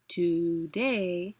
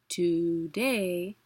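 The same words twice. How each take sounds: First: The stress is on the second syllable. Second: The stress is on the second syllable.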